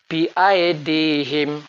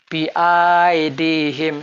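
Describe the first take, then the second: First: The vowel after the glottal stop is short. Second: The vowel after the glottal stop is lengthened. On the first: The speaker calls it right. "Yang betul ... karena hamzah kotok tidak dipanjangkan" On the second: The speaker calls it wrong. "Bacaan yang salah sekiranya hamzah kotok dipanjangkan"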